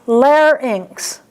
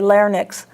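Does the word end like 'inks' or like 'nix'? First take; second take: inks; nix. First: The Y sound comes before the N: 'lar-inks'. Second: The N comes before the Y sound: 'lar-nix'. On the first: The speaker calls it right. "So it's larynx. Just think of ink" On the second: The speaker calls it wrong. "So many people say larynx"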